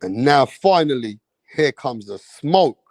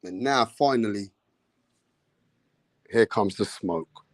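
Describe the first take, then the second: First: Announcer build-up. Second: Low announcer tease. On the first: Announcing the fight, second take. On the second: Announcing the fight, first take. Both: Acted.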